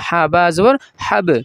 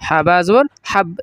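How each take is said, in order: First: The final b bounces with a slight echo. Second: The final b stops flat with no echo. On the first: The speaker calls it right. "হাব একটা ধাক্কা হবে, প্রতিধ্বনি হবে" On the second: The speaker calls it wrong. "এখানে এভাবে পড়ব না যে"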